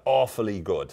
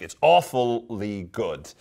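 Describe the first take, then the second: First: Said in the usual way. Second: "awfully" stretched syllable by syllable; slow right down and lean on "awfully"; drawn-out emphasis. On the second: Shown as a demonstration. Teacher savouring a favourite Irish phrase, "awfully" drawn out.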